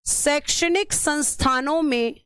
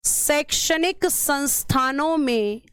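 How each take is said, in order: First: Said in the usual way. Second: शैक्षणिक संस्थानों में said slowly, word by word; slow, even dictation pace for note-taking. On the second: Shown as a demonstration. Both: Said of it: "तो इसमें पहले लिखना".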